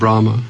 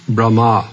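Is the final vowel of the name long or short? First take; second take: short; long. First: The final vowel is short. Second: The final vowel is long. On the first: The speaker calls it wrong. "Wrong pronunciation" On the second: The speaker calls it right. "Long R at the end"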